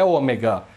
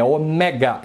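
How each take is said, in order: First: "ômega" with closed, round e; wrong ômega. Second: "ômega" with open e, stressed o-MÉ-ga; correct Greek ômega. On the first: Teacher showing viewers the mistake, "ômega" with closed e. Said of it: "Não é ômega". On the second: Teacher correcting viewers on Greek letter, "ômega" with open é. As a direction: open the middle vowel of "ômega" to "é". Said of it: "Não é ômega, é ômega". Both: Shown as a demonstration.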